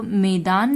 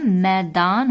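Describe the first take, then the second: First: मैदान read as मेदान, a plain long e in the first syllable; teacher sounds मैदान with the wrong vowel, मे- instead of मै-. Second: मैदान said slowly with the open ऐ vowel, मै-दान; the first syllable of मैदान opens wide like "mae"; correct reading. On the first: Teacher shows children the misspelled word, read as मेदान. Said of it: "तो मैदान नहीं होता है". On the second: Teacher gives children the right sound, मैदान with ऐ. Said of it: "मैदान होता है". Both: Shown as a demonstration.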